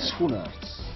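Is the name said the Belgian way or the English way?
Belgian. The name is said with a Belgian pronunciation. "what is like the Belgian pronunciation?"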